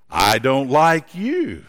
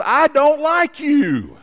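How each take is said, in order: First: Echo. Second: Put-on high, slow, louder call of an irritated boy; boy yelling his dislike to the mountains. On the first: Acted. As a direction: answer as the mountain echo. Echo answers the boy. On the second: Irritated boy calls to echo.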